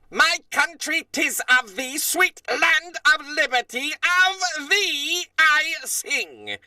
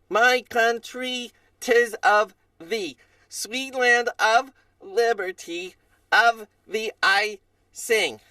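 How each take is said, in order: First: It is spoken confidently, with precise deliberate words. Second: It is spoken hesitantly, without much confidence.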